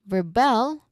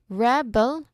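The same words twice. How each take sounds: First: The stress is on the second syllable. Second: The stress is on the first syllable. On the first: It names the action of defying authority. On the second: It names a person who defies authority.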